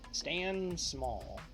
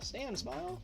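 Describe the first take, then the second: First: The surname's vowel sounds like 'all'. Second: The surname's vowel sounds like 'eye'. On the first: "that's it's probably not how you pronounce it"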